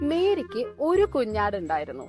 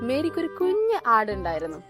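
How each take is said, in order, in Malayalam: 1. ഒരു എന്ന വാക്കിനാണ് ഊന്നൽ. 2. കുഞ്ഞ് എന്ന വാക്കിനാണ് ഊന്നൽ. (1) "യെസ്" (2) "ഒരു ക്യൂട്ട് ആട് അല്ലെ"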